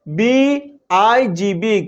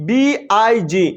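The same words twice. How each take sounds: First: Letters stretched out, very slow; very slow spelling. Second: Said in the usual way. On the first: Shown as a demonstration. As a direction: spell it out very slowly for the class. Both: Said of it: "এবার দেখো example".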